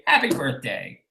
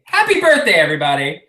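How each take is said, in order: First: Dry, soft deadpan repeat. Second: Sarcastic cheer. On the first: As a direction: drop it quietly, deadpan. Repeated, dropped flat. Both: Real, not acted.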